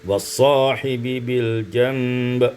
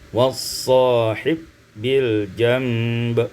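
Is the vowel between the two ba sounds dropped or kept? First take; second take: kept; dropped. First: The two ba sounds stay apart with a vowel. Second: The two ba sounds merge into one long ba.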